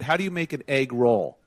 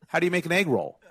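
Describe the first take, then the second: First: Egg and roll are said as separate words. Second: Egg roll is said as one single word. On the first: The joke's punchline becomes obvious. The speaker calls it wrong. "You separated egg and roll" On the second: The joke's punchline stays hidden. The speaker calls it right. "it's one word"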